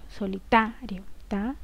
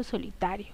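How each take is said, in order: First: "solitario" with the syllable TA stressed, then TA alone. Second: Said in the usual way. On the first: Shown as a demonstration. Teacher showing where the accent falls, TA stressed in "solitario". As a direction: lean on TA in "solitario", then isolate it. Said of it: "Vendría a ser el acento dentro de esta palabra". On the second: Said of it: "Vendría a ser el acento".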